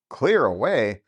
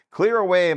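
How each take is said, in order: First: Said in the usual way. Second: "Clear away" shouted merrily; hearty call. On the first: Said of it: "narrator echoes the call". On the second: A narrator's reading. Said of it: "cried old Fezziwig".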